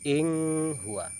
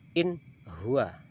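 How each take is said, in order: First: The n sound is blurred, not clear. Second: The n sound is pronounced clearly. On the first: The speaker calls it wrong. "tidak boleh" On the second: The speaker calls it right. "bacanya jelas"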